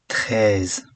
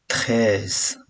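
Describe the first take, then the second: The two takes are said the same way.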